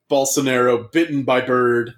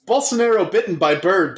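First: Said in the usual way. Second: Bolsonaro said higher, like a headline; higher headline read. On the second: Shown as a demonstration. Friend trying the headline aloud, higher pitched headline read. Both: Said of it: "That's your headline".

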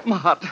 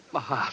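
First: Said in the usual way. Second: Much softer, fading groan of pain; faint, failing whisper of pain; faint moan. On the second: Acted. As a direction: let it die away weakly. Collapsing, heart failing.

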